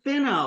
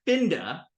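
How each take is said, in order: First: "finna" with just an N, final vowel held. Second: "finda" with an audible D after the N. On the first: Teacher recalling the Southern form, no D. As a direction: drop the D from "finna". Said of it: "straight F I N N A". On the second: Teacher recalling the Northern form, D sounded. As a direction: put a D into "finda". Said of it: "there was a D in it". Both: Shown as a demonstration.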